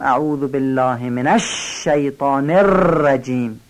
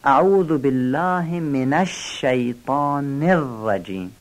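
First: Long hissed ش in الشیطان, long trilled ر in الرجیم; exaggerated تشدید. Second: Slow, with doubled ش in الشیطان and ر in الرجیم; measured تشدید. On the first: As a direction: overdo the doubled ش of الشیطان and ر of الرجیم. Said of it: "اینم افراط است". (تشدید افراطی روی الشیطان و الرجیم) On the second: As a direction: dwell a little on the ش of الشیطان and ر of الرجیم. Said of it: "تشدید شین و ر". (مکث کوتاه روی تشدید الشیطان و الرجیم) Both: Shown as a demonstration.

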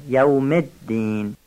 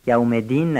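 First: الدین with the d doubled, "yawmed-din"; slow یوم الدین, pausing on the d; held shadda. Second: یوم دین with a single light d, "yawme-din"; missing shadda. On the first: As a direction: hold the doubled dal of الدین. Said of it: "تشدید دال دینم یه مقدار مکس بشه". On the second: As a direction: run into دین without pausing on the d. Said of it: "یوم دین نشه". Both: Shown as a demonstration.

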